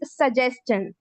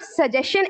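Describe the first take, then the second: First: The ending is pronounced as 'chen'. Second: The ending is not pronounced as 'chen'. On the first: The speaker calls it right. "It is सजेशन" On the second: The speaker calls it wrong. "Actually it's not सजेशन"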